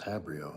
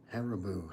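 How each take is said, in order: First: The name is said as ha-bri-o. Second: The name is said as ha-ri-bo. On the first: The speaker calls it wrong. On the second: The speaker calls it right.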